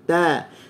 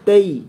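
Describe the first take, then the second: First: The vowel is a plain open 'a'. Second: The vowel glides toward 'i' with a closed mouth. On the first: The speaker calls it right. "mesti buka dulu" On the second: The speaker calls it wrong. "kita suka baca ataina tai. Kita tak buka mulut"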